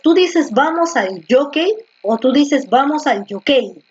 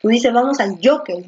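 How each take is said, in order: First: Jockey said twice with the stress moved; teacher asking where the stress falls in jockey; stress contrast. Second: Jockey with a firm stress on JO, JO-ckey; teacher confirming the stress. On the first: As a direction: compare jockey stressed at the end, then on JO. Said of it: "la fuerza de voz está aquí, en la penúltima". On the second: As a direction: lean on JO in jockey. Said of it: "en la penúltima". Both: Shown as a demonstration.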